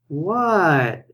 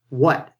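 First: It sounds interested and playful. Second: It sounds uninterested and put off.

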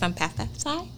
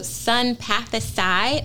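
First: The word is said very quickly. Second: The word is said at a normal speed.

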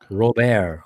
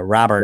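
First: The name is said the French way. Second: The name is said the American way.

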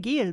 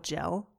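First: The word is said with a German pronunciation. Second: The word is said with an English pronunciation.

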